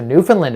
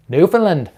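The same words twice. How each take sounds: First: Said in the usual way. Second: High, loud mock Newfoundland accent; badly faked Newfoundland accent, pitched up. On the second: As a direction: put on a hammy Newfoundland accent. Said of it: "That was a bad accent".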